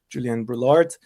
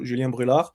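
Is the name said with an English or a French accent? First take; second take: English; French. First: The name is said with an English accent. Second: The name is said with a French accent. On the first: "like with the English one" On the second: "like with French accent"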